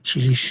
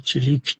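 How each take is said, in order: First: The name ends with an sh sound. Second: The name ends with a k sound. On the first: This is how people here say it. "این که در بین ما تیلیش میگن این غلطه" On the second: This is how Americans say it. "امریکایی هم تیلیک تلفظ میکنن سی اچ رو"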